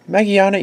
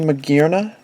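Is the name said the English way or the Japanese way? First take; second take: Japanese; English. First: The name is said the Japanese way. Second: The name is said the English way. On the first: This is how Japanese collectors say it. "I'm a Japanese collector, so I'm saying Magiana" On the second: This is how English-speaking collectors say it. "I know a lot of you English collectors say Magierna"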